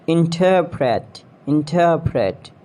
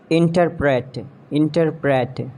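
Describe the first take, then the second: First: "Interpret" as in-TUR-prit; British pronunciation. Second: "Interpret" as IN-ter-pret; mispronounced interpret. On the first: Shown as a demonstration. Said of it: "exact pronunciation according to the British". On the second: Acted. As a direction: stress IN in "Interpret". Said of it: "you have to correct me".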